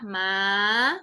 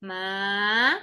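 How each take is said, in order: The two takes are said the same way.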